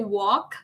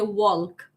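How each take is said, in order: First: The L sound is silent. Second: The L sound is clearly pronounced. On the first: "they don't say walk" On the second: "they say walk"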